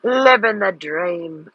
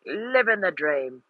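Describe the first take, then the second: First: Put-on slow, drawn-out Welsh accent; a Dick Van Dyke style Welsh accent. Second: Soft, low-key Welsh accent attempt; a Dick Van Dyke style Welsh accent. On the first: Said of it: "You sound like Dick Van Dyke when you do a Welsh accent". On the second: Shown as a demonstration. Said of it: "tell me if this sounds like Dick Van Dyke".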